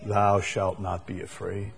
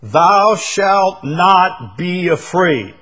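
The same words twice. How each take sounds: First: Soft, gentle reassuring promise; quiet, lower, gentle promise. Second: Slow, loud, high commanding decree. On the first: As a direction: say it like a tender promise to a child. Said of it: "I like it as a promise". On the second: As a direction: proclaim it as an order from God. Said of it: "You might even say it's a command". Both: Shown as a demonstration.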